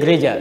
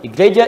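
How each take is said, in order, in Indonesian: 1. Kata ini langsung dimulai dengan bunyi konsonan. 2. Kata ini dimulai dengan bunyi vokal tambahan. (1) "Jadi gereja itu asalnya bukan bahasa Indonesia, itu serapan dari bahasa Latin" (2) "semakin banyak diucapkan, biasanya semakin berubah pelafalan"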